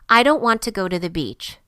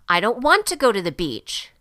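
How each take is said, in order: First: It is said calmly, like a plain statement. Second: It is said loudly, with strong feeling. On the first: It is a mere statement. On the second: The feeling is a strong one.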